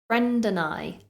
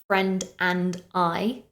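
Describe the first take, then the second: First: The words are linked together like one word. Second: Each word is said separately without linking. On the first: The speaker calls it right. "We condense it down so that it almost sounds like one word" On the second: The speaker calls it wrong. "Notice how I don't say friend and I"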